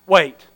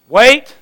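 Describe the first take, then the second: First: Said in the usual way. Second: "Wait" louder with a rising lift; emphatic wait. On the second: Shown as a demonstration. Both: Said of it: "the hardest words".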